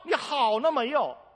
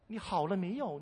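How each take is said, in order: First: The question sounds harsh and scolding. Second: The question sounds gentle and soft. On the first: The speaker calls it wrong. "我讲的语气不太好" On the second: The speaker calls it right. "温柔一点"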